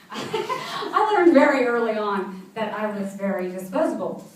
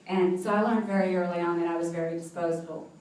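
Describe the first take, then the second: First: Laughing while saying it, drawn out slowly; laughing through it. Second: Said in the usual way. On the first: Real, not acted. Telling the host of her childhood, laughing slowly. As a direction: let a rueful laugh carry the words slowly. Bitter joke about being disposable.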